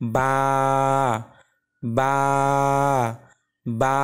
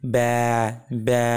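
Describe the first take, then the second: First: The vowel is wide open, a clear 'ba'. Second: The vowel is narrow, like a goat bleating. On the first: The speaker calls it right. "তিন আঙ্গুল পরিমাণ ফাঁকা করলে আমরা বা এর সঠিক উচ্চারণটি" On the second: The speaker calls it wrong. "ছাগলের ডাকের মতন শোনাবে"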